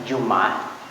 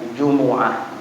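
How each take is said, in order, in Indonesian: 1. Tidak ada vokal yang mengikuti bunyi m. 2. Vokal u mengikuti bunyi m. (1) "Boleh disukunkan bunyinya Jum'ah" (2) "boleh didhammahkan bunyinya Jumu'ah. Dan itu yang paling afsah"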